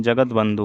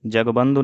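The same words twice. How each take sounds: First: Said in the usual way. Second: जगबंधु without the t syllable; wrong pronunciation. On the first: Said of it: "होता है". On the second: Shown as a demonstration. Teacher shows students the error, जगबंधु missing its t. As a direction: say जगबंधु as jag-bandhu. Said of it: "नहीं".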